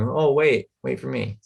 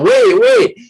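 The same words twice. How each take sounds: First: Said in the usual way. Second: High, loud yell to catch a bus; shouted "Wait, wait" to stop a bus. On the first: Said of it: "they're not just going". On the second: Shown as a demonstration. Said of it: "if they yell out".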